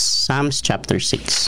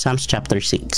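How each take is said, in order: First: "Psalms" drawn out slowly; slow announcement. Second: Said in the usual way. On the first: Shown as a demonstration. Pastor announcing the reading to the church, slow.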